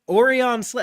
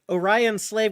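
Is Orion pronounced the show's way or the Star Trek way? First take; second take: show's way; Star Trek. First: Orion is pronounced the show's own way. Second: Orion is pronounced the familiar Star Trek way. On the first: The speaker calls it right. "I mean" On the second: The speaker calls it wrong. "calls Orions and Star Trek Orions"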